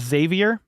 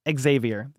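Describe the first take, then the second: First: The name begins with a plain 'z' sound. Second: The name begins with an 'eks' sound. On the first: The speaker calls it wrong. "Some people call him Xavier" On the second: The speaker calls it right. "it's definitely Xavier. You got to add the X to it"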